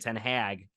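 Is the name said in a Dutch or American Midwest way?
American Midwest. The name is said with a Midwest American accent. This is the speaker's own natural way of saying it. "because I'm from the Midwest"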